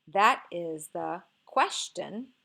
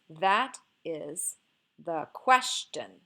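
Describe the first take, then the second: First: "That is the" as one group stressed on "That", pause, then "question"; group "That is the" / "question", stressing "That" and "ques"; dactyl, then trochee. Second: Slow "that is", pause, then "the question" with weight on "ques"; trochee, then iamb. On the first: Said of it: "do we have a dactyl". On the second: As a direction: split it as "that is" / "the question", stressing "that" and "ques". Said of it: "a crochet, an iamb, and a feminine ending". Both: Shown as a demonstration.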